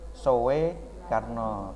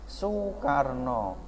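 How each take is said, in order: First: The first syllable is read letter by letter. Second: The first syllable is said with a 'u' sound. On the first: This follows the old written spelling. "ditulis Sowe Karno" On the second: This is how the name is actually read. "tapi bacanya Soekarno"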